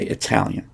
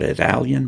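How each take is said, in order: First: Italian with a clear, aspirated T before the stressed vowel; Italian with a proper T, not a flap. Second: Italian said wrongly with the T flapped, like "Idalian"; Italian with a flap where the T belongs. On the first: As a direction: say Italian with a crisp T. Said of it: "and we say Italian". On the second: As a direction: say Italian with a tapped d-like T, as the wrong version. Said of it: "it's not Italian". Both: Shown as a demonstration.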